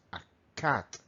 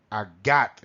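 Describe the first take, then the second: First: Cat with a clear k at the start; correct cat with C. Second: Cat with a voiced g at the start; wrong cat with G. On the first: Teacher giving the right cat after the error. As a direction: open "cat" on a crisp k. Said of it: "Con C". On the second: Teacher mocking the g error for cat. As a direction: start "gat" on a g, as a mistake. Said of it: "no quiero oír a gat". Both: Shown as a demonstration.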